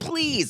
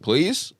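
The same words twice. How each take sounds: First: It sounds needy and desperate. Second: It sounds light and casually asking.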